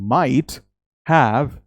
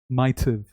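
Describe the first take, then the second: First: Both words are said fully and separately. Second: The words are contracted into one reduced form. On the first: "instead of saying might have" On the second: "you contract it and it becomes might have"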